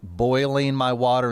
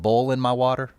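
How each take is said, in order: First: Boiling has the standard oi vowel sound. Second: Boiling sounds like bowling, a southern vowel. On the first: This is the newer way people say it. "now be boiling my water" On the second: This is the older local way of saying it. "rather than bowling"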